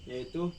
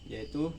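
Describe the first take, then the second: The two takes are said the same way.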